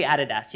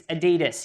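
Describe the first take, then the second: First: "Adidas" with the first syllable stressed, AD-i-das; Australian pronunciation. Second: "Adidas" with the middle syllable stressed, a-DEE-das; American pronunciation. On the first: Australian speaker showing how we say it, "Adidas" as AD-i-das. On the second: Australian speaker trying the local word here, "Adidas" as a-DEE-das. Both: Shown as a demonstration. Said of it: "We say Adidas".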